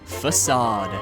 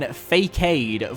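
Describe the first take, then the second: First: The middle consonant sounds like an S. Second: The middle consonant sounds like a K. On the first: The speaker calls it right. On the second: The speaker calls it wrong.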